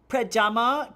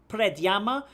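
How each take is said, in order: First: The name is said without a 'y' sound after 'd'. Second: The name is said with a 'y' sound after 'd'. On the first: "I don't know if I pronounced that cor- correctly" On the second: "If it's Slovenia, so maybe Predjama"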